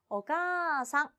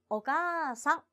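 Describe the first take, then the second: No difference in how they are said.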